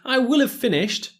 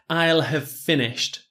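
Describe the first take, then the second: First: The word will is said in full. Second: The word will is contracted onto I. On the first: The speaker calls it wrong. "I probably wouldn't say that" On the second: The speaker calls it right. "I would contract"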